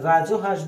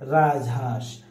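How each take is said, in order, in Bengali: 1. 'raj'-এর পরে একটি 'o' স্বরধ্বনি শোনা যায়। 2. 'raj'-এর পরে কোনো স্বরধ্বনি শোনা যায় না।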